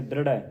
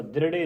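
First: ਦ੍ਰਿੜੈ ending in open "ai"; ਦ੍ਰਿੜੈ with dulavan. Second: ਦ੍ਰਿੜੇ ending in closed "e"; mispronounced ਦ੍ਰਿੜੇ. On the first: Teacher modelling the dulavan, ਦ੍ਰਿੜੈ ending open ai. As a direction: finish ਦ੍ਰਿੜੈ on a wide "rai". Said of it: "ਦਲਾਵਾਂ ਲੱਗੀਆਂ". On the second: Teacher showing the reading to avoid, ਦ੍ਰਿੜੇ ending closed e. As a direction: finish ਦ੍ਰਿੜੇ on a narrow "re". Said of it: "ਦ੍ਰਿੜੇ ਨਹੀਂ ਪੜ੍ਹਨਾ". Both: Shown as a demonstration.

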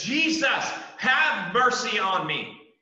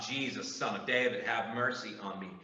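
First: Loud, much higher desperate cry, slow on mercy. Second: Softer, reflective retelling of the cry; preacher softly repeating the blind man's plea; subdued cry. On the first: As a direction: cry out to Jesus with everything you have. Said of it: "He cries out to". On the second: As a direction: say the plea quietly, almost to yourself. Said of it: "The blind man cries out". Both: Acted.

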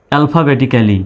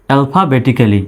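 No difference in how they are said.

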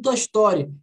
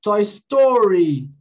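First: "Toy Story" with tapped R and sh-like S; "Toy Story" as Brazilians say it; Brazilian pronunciation. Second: Slow "Toy Story" with long curled R; "Toy Story" drawn out, retroflex R; English R. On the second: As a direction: stretch the R in STORY. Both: Shown as a demonstration. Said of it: "Qual é o som?".

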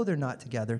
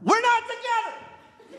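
First: Said in the usual way. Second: Very high, drawn-out mimicking screech; mock drunken scream. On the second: Imitating the front-row couple, drunken scream. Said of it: "drunkenly screaming".

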